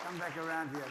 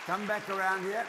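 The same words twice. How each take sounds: First: Said in the usual way. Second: Calling out. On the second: Real, not acted. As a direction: call them back loudly. Calling children back over.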